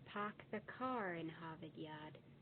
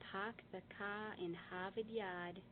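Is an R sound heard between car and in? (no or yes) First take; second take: yes; no. First: An R sound links car and in. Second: No R sound links car and in. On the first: The speaker calls it right. "The correct pronunciation would be" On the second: The speaker calls it wrong. "is wrong"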